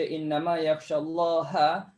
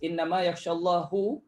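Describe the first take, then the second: First: The word for God ends in an 'a' vowel. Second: The word for God ends in a 'u' vowel. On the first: Those who fear God are the scholars. The speaker calls it right. "mana-mana qiraat sepakat baca" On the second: God fears the scholars. The speaker calls it wrong. "kalau kita tukarkan baris"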